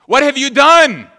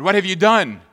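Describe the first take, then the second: First: Much higher and much louder, slow and drawn out; furious shout. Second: A raised, accusing question to the brothers; stern accusation. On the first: Joseph shouting at his brothers who stole the cup, slow furious shout. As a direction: bellow the accusation slowly. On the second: Joseph accusing his brothers, raised voice. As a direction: confront them with what they did. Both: Acted.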